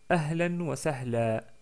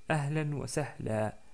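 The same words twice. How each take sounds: First: The last word ends on a lengthened 'a' vowel. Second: The same.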